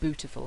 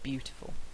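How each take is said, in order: First: The first syllable is 'boo' with no y sound. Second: The first syllable is 'byoo' with a y sound. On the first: "Norfolk, for example, is known for people saying bootiful" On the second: "instead of beautiful"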